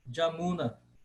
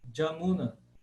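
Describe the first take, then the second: First: The name begins with a J sound. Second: The name begins with a J sound.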